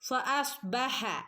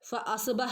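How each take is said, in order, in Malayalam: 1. അവസാനത്തെ ഹ തൊണ്ടയിൽ നിന്നുള്ളതും ശ്വാസം കലർന്ന ḥ ആണ്. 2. അവസാനത്തെ ഹ സാധാരണവും ലഘുവായ ഹ ആണ്. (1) "ഹ ഹന്റെ സൗണ്ട് തന്നെ ഇവിടെ കൊടുക്കാൻ" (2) "ഫഅസ്ബഹ എന്നൊന്നും ഓതരുത് കേട്ടോ"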